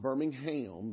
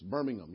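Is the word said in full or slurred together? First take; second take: full; slurred. First: Every syllable is said clearly and in full. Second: The syllables are slurred together into a shorter word. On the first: This is the name of the city in Alabama. The speaker calls it wrong. "Not Birmingham, that's in Alabama" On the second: This is the name of the city in England. The speaker calls it right. "You got to just say it, kind of slur it all together"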